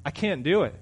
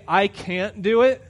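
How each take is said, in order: First: Said in the usual way. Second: Slower, higher and louder, leaning on it; a deliberate, drawn-out "I can't do it"; slow, stressed quote. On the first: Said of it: "you know what you're saying when you say that". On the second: Shown as a demonstration. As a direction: spell out the excuse slowly and firmly. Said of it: "When you say".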